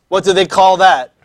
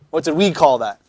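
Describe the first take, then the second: First: "they" set against "we"; stress on THEY. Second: "we" picked out, falling close; stress on WE. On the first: Teacher quizzing on the video's terms, "they" stressed. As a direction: lean on "they" to contrast the terms. Contrasts their term with ours. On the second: Teacher quizzing on the class's own term, "we" stressed. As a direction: lean on "we" to contrast the terms. Contrasts our term with theirs. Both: Real, not acted.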